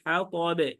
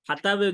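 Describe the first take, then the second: First: The t sound is heavy and full. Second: The t sound is light and thin. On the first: The speaker calls it right. "এটা কিন্তু মোটা হরফ" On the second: The speaker calls it wrong. "হাতাবে যদি বলেন সেটা কিন্তু নামাজ ভেঙে যাবে"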